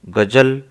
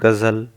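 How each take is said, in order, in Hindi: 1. "ज" को उसकी सामान्य ध्वनि से बोला जाता है। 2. "ज" को नुक्ता से बदली हुई ध्वनि से बोला जाता है।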